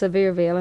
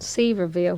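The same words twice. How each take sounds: First: The first part sounds like the word 'severe'. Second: The first part does not sound like 'severe'. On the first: This is how locals properly say it. The speaker calls it right. "it's actually pronounced Sevierville" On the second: This is how most people say it. The speaker calls it wrong. "most people uh, call my hometown Sevierville, which is very, very common"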